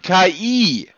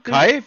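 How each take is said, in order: First: It is said as two letters, 'ka-ee'. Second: It is said as one syllable, like 'kai'. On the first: The speaker calls it right. "Ach, die meinen KI" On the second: The speaker calls it wrong. "Sie müssen das schon richtig aussprechen"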